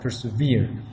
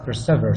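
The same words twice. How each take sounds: First: The word does not rhyme with 'ever'. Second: The word rhymes with 'ever'. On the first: This is the present-day pronunciation. "It's now what we know as persevere" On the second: This is the old pronunciation from the poem's time. "Back then it was, it was pronounced as persevere, so it rhymes with the last word of the next line"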